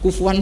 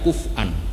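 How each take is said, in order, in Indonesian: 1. Konsonan di tengah itu bunyi w. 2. Konsonan di tengah itu hamzah. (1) "Hanya adanya di bahasa Quraisy" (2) "yang ada kuf'an pakai hamzah"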